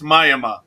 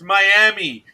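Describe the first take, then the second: First: The name has the local Oklahoma-town pronunciation. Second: The name has its usual English pronunciation. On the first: "in some little hick town in Oklahoma, it's Miami" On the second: "In English, it's Miami"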